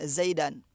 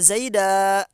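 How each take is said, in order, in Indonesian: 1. Kata ini diakhiri bunyi n tambahan. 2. Kata ini diakhiri a panjang, tidak ada n. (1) "dibaca tanwin zaidan" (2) "dibacanya satu alif ya, enggak ditanwin"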